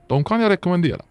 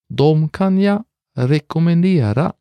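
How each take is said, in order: First: It is said at normal conversational speed. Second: It is said slowly and carefully.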